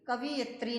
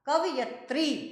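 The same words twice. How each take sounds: First: The 'i' vowel comes after the v sound. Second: The 'i' vowel comes after the y sound. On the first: The speaker calls it wrong. "कवयित्री नहीं होता" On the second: The speaker calls it right. "य के ऊपर मात्रा, त्र के ऊपर मात्रा लगती है"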